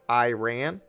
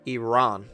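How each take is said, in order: First: It begins with an 'eye' sound. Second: It begins with an 'ih' sound. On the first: This is the common everyday way of saying it. The speaker calls it wrong. "most people say Iran, like I R A N" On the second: This is the proper way of saying it. The speaker calls it right. "the correct pronunciation is Iran"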